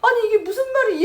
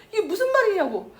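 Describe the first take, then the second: First: High, loud and tearful, leaning on 말이; tearful protest. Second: High and tearful, leaning hard on 무슨; tearful protest. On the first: Mother to husband, a high tearful protest. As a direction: cry out 이게 무슨 말이 in disbelief. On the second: Mother to husband, high tearful demand. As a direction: demand 이게 무슨 말이냐고 through tears. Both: Retold or imitated.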